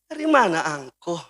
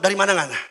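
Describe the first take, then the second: First: The question is asked in a soft, gentle tone. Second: The question is asked in a blunt, harsh tone.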